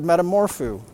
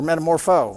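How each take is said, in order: First: The final vowel is an oo sound. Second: The final vowel is a long o sound. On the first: The speaker calls it wrong. "I always said ooh" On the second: The speaker calls it right. "I guess it's O. It's long O"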